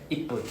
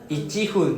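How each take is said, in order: First: The word is fused into one smooth breath. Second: The word is split into two parts, going up and down. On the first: The speaker calls it right. "ippun sounds cooler and easier to say in one breath" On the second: The speaker calls it wrong. "ichi-fun sounds so weird very hard to say"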